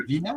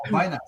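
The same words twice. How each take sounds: First: Vina said VEE-nah; Vina rhyming with Tina; first-syllable EE. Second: Vina said VY-nah; Vina opening like the word vine; first-syllable EYE. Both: Shown as a demonstration. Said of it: "How do you pronounce that?".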